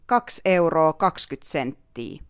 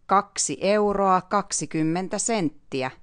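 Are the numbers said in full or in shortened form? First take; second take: shortened; full. First: The numbers are said in clipped, short forms. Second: The numbers are said as full, long words. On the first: This is the casual, everyday spoken way. "in speaking language we say" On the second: This is the official, formal way to say it. "in the official Finnish we say"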